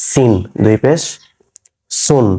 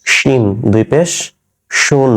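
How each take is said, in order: First: Crisp s in "সিন" and "সুন", never sh; dental s. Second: Full sh in "শিন" and "শুন"; palatal sh. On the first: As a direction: hiss a clean s on "সিন", "সুন". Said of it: "এটা দন্ত স দিয়ে". (দন্ত্য স দিয়ে "সিন", "সুন") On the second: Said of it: "এটা তালব্য স দিয়ে হবে". (তালব্য শ দিয়ে "শিন", "শুন") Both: Shown as a demonstration.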